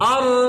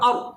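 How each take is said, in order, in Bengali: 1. শেষের র-এর শব্দ চাপ দিয়ে ধরে রাখা হয়। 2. শেষের র-এর শব্দ হঠাৎ থেমে যায়। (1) "চাপ দিয়ে ধরে রাখতে হবে একটুক্ষণ" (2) "আপনি যদি এভাবে বলেন হামজা র জবর অর, তাহলে হয় নাই"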